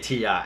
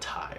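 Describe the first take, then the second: First: It is spoken as two separate letters. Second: It is spoken as a single one-syllable word. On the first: The speaker calls it right. "So I'm going to say Ti" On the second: The speaker calls it wrong. "not not Ti"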